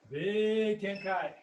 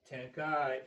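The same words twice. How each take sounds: First: Big Tenkai said slowly, Tenkai drawn out and stressed; stretched emphasis. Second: Said in the usual way. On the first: Shown as a demonstration. Instructor shows the class the key turn: slow stressed Tenkai. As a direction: draw out Tenkai to show the size of the move. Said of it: "So watch me one more time, just watch". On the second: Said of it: "emphasize the Tenkai".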